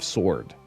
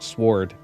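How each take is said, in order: First: The W sound is silent. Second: The W sound is pronounced. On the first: The speaker calls it right. "You don't pronounce the W" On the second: The speaker calls it wrong. "sometimes it'll come out sword instead of sword"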